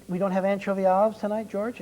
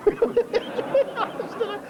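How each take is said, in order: First: Said in the usual way. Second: High, laughing mock echo of the line; giggling mockery of the manager's excuse. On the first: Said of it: "the old manager says". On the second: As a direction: repeat it through a laugh, mocking.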